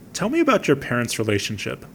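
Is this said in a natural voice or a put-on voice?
natural. It is read in a plain, natural voice.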